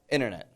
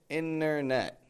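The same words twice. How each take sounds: First: The N is said very quickly. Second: The N is stretched out long. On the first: The speaker calls it right. "It's very quick N" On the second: The speaker calls it wrong. "I'm not stretching the N out like the word inner"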